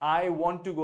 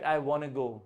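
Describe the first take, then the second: First: Want to is said as two full words. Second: Want to is reduced to one word, wanna. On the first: The speaker calls it wrong. "आप ये नहीं बोलते" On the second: The speaker calls it right. "वो वाना बोलते हैं"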